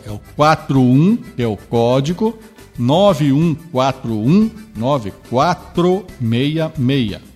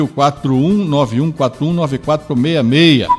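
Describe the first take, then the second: First: The number is read slowly. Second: The number is read fast.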